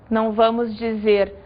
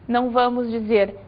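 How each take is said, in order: Both takes have the same delivery.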